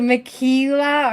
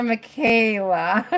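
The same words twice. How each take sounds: First: "Michaela" pronounced muh-KEE-luh. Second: "Michaela" pronounced muh-KAY-luh. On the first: Host asks viewer which is right, Michaela as muh-KEE-luh. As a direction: say "Michaela" with a long EE in the middle. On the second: Host asks viewer which is right, Michaela as muh-KAY-luh. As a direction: say "Michaela" with a long AY in the middle. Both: Shown as a demonstration. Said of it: "I still don't know if I'm saying it right".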